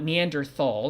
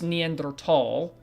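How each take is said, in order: First: The 'th' is said as a soft th. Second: The 'th' is said as a plain t. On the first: The speaker calls it wrong. "not Neanderthal" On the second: The speaker calls it right. "it is Neanderthal"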